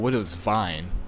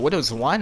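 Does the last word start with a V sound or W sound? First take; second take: V sound; W sound. First: The last word starts with a V sound. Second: The last word starts with a W sound. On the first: "is it Widow's Wine or Widow's Vine?" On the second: "is it Widow's Wine or Widow's Vine?"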